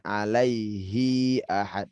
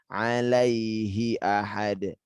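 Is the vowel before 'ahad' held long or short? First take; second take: long; short. First: The final vowel of alaihi is held long. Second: The final vowel of alaihi is kept short. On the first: The speaker calls it wrong. "Jangan sampai dua harokat. ... Bukan" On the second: The speaker calls it right. "Tapi ... satu harakat"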